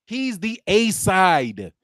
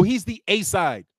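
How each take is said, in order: First: "He's the A side" slowed, each word spelled out; slow mocking stress. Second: Said in the usual way. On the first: Shown as a demonstration. Sarcastic vlogger spelling it out to chat, slowly. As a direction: lean on "A side" as if to a child. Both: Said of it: "Don't you understand?".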